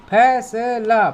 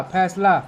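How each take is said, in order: First: फैसला split slowly into fai-sa-la; syllable by syllable. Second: Said in the usual way. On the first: Shown as a demonstration. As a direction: sound out फैसला slowly, every syllable apart. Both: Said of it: "अब यहाँ पढ़ना सीखेंगे हम".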